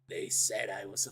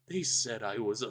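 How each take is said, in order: First: It is read in a put-on character voice. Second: It is read in the speaker's own voice.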